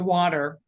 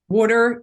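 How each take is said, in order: First: It is said in a neutral radio accent. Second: It is said in a Delco accent.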